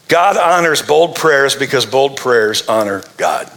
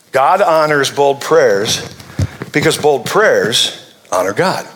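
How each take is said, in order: First: Said in the usual way. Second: "God honors bold prayers" slowed down, every word weighed; slow, deliberate repeat. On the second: Shown as a demonstration. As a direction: drive it home slowly so they can write it. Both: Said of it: "So write this down somewhere".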